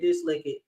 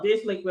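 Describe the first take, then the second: First: The second word sounds like 'lick it'. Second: The second word sounds like 'liquid'. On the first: The speaker calls it wrong. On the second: The speaker calls it right.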